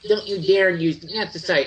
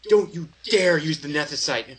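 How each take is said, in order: First: The voice is high and clearly squeaky. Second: The voice is lower and only slightly squeaky.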